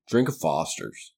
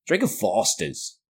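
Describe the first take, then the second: First: Put-on slow Australian accent pitch line; mock Australian ad. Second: Slow, drawn-out fake Australian accent; mock Australian ad again. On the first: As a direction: sell the beer in a fake Australian accent. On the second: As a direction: repeat the slogan slower in fake Australian. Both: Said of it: "I can't do an Australian accent".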